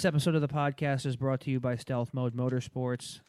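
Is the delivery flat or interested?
flat. It is read in a flat monotone.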